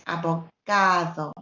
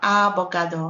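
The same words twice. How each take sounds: First: The stress falls on the syllable ga. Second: The stress falls on a syllable other than ga. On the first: The speaker calls it right. "the sound is going to be longer on the vowel. So it's abogado" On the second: The speaker calls it wrong. "not abogado"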